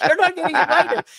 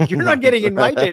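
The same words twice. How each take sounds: First: Higher, louder, cracking up; laughing harder. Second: Laughing loudly, higher. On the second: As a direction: laugh through the punchline. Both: Real, not acted.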